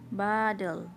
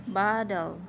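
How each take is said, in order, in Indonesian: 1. Diucapkan dengan aksen Amerika. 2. Diucapkan dengan aksen Amerika.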